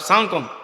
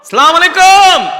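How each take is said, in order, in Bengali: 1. সালামটি সংক্ষেপ করে একটা অস্পষ্ট বিড়বিড়ানিতে পরিণত করা হয়েছে। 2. সালামটি পুরোপুরি ও স্পষ্টভাবে বলা হয়েছে। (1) "নির্বাচন আইলে কত ধরনের সালাম" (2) "ঠিক করে বলেন"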